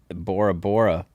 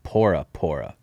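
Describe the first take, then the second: First: The name begins with a B sound. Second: The name begins with a P sound. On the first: This is the common outside pronunciation. "Bora Bora is what we call it" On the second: This is the local Polynesian pronunciation. "There is no B sound in like Polynesian language, so they pronounce it pora pora"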